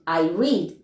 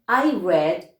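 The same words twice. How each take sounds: First: The vowel is long, like 'reed'. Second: The vowel is short, like 'red'. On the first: The action happens in the present. "I read in present" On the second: The action happened in the past. "I read in the past"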